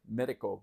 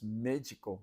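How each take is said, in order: First: The D is a plain, hard D sound. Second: The D sounds soft, like a J. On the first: The speaker calls it wrong. "it looks like medic, medico" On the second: The speaker calls it right. "they kind of pronounce the D a little funny in Portuguese"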